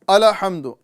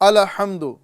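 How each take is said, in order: First: The l sound bounces with an echoing release. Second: The same.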